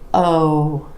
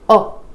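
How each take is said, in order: First: The vowel is long and stretched out. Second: The vowel is short and clipped. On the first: The speaker calls it right. "stretch the sound. Give it a little more duration" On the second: The speaker calls it wrong. "You don't want it to be oh"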